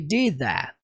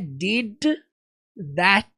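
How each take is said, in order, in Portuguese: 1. As consoantes finais são omitidas completamente. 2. As consoantes finais são pronunciadas claramente. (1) "as consoantes finais aqui, elas não existem nessa fala. Ele literalmente fala" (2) "você percebe que não é did that"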